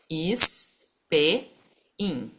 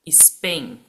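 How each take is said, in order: First: The word is split into separate syllables. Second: The word is said smoothly as one unit.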